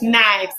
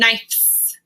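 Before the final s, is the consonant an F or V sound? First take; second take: V; F. First: The consonant before the s is a v sound. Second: The consonant before the s is an f sound. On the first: The speaker calls it right. "knife turns into knives" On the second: The speaker calls it wrong. "I don't say knives"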